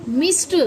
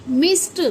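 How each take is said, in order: The two takes are said the same way.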